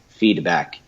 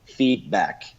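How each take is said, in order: First: The d is a quick tap of the tongue. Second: The throat closes instead of saying the d. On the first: "tapping my tongue very quickly at this part" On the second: "you'll close that thing and say feedback"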